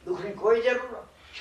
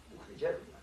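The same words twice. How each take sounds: First: કોઈ pressed firm in full voice; full-voiced, leaning on કોઈ; stress on કોઈ. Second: Breathy unvoiced whisper of the line; whispered aside. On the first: Preacher to congregation, firmly stressing કોઈ. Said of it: "repeated aloud, stressing કોઈ". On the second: Preacher to congregation, whispering it to himself. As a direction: drop to a hush on દુઃખની જરૂર નથી. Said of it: "repeated as a softly voiced aside". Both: Shown as a demonstration.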